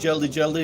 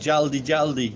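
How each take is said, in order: First: The first vowel sounds like 'e'. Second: The first vowel sounds like 'a'. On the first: The speaker calls it wrong. "I was saying Jeldi Jeldi instead of Jaldi Jaldi. I was pronouncing it wrong" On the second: The speaker calls it right. "Jaldi. Yeah, I think that's right"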